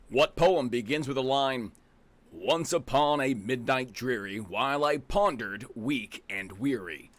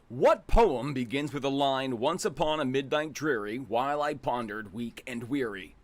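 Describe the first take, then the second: First: It is read heavily, with solemn gravitas. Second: It is read in a plain, casual way.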